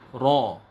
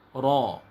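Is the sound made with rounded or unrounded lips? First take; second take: rounded; rounded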